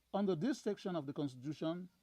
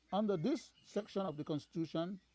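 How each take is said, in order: No difference in how they are said.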